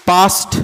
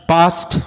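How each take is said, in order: Both takes have the same delivery.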